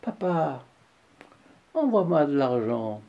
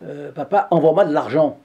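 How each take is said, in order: First: The request sounds gentle and kind. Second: The request sounds curt and demanding.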